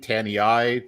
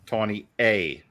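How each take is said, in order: First: The name ends with an 'eye' sound. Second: The name ends with an 'ay' sound. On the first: The speaker calls it wrong. "I've been saying Tanny I" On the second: The speaker calls it right. "like just the letter A"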